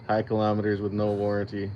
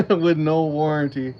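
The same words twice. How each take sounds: First: Said in the usual way. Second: Louder, laughing through the words. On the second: Real, not acted. Repeating the viewer's joke to chat, laughing out loud. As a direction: crack up as you repeat the punchline.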